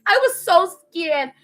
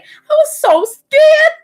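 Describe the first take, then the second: First: Slower, somewhat higher, toned-down dramatic repeat; milder scared. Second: Very high, loud, drawn-out mock wail; hammed-up scared wail. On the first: Acted. Repeating her fear to viewers, milder scared voice. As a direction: say it slowly with a touch of fright. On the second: Telling viewers about her injured friend, exaggerated scared wail. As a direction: stretch it into an exaggerated frightened squeal. Storyteller dramatizes her own fear.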